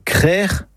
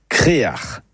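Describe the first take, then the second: First: Crère as one syllable, throaty ending; correct Breton pronunciation. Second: Créar as two syllables, é then a; correct Breton pronunciation. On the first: Teacher gives listeners the first accepted form, correct pronunciation. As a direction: say crère with a single open e. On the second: Teacher gives listeners the second accepted form, correct pronunciation. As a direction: say créar with both vowels and a throaty ending. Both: Shown as a demonstration. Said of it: "la bonne production est".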